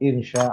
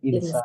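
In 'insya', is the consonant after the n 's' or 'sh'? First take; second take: sh; s. First: The consonant after the n is sh. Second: The consonant after the n is plain s. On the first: It means if God wills. The speaker calls it right. "mestinya kan sinnya besar, sinnya besar, ada titiknya" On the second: It means if God is bad. The speaker calls it wrong. "kita kepleset, jadi kecil itu nggak ada titiknya"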